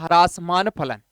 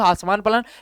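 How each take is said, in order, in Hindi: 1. पहले अक्षर में र की ध्वनि है। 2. पहले अक्षर में र की ध्वनि नहीं है। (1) "वास्तव में होता है ह्रासमान फलन" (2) "बोलने में बोल सकता हूं हासमान फलन"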